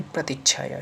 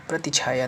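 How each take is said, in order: First: प्रतिच्छाया with doubled ch-chh; corrected form. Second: प्रतिछाया with single chh; wrong form. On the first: Teacher corrects students, प्रतिच्छाया with doubled consonant. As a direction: hold the half ch in प्रतिच्छाया. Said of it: "छा के बाद आधा चा". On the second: Teacher shows the error, प्रतिछाया with single chh. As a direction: go straight from ti to chhaya in प्रतिछाया. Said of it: "नहीं". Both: Shown as a demonstration.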